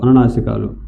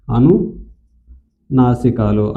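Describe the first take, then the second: First: Said in the usual way. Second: Syllable by syllable, slow and lower; slow drawn-out term. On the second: Shown as a demonstration. Teacher drills the term for students, slowly. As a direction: stretch out అనునాసికాలు slowly for students.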